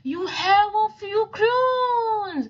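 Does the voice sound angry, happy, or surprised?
surprised. It is read in a surprised voice.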